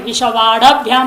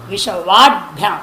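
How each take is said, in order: First: विश्ववाडभ्याम with an extra a vowel after ड, vāḍa-bhyām; the common mistake: add a vowel after the ड in विश्ववाडभ्याम; wrong pronunciation. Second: विश्ववाडभ्याम with ड as a bare consonant joined straight to भ्याम; correct pronunciation. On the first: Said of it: "हम आप बोलते थोड़ा उच्चारण में". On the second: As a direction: say विश्ववाडभ्याम with no vowel after ड, vāḍ-bhyām. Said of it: "ड हल है". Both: Shown as a demonstration.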